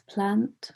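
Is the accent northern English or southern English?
northern English. It has a short northern English vowel.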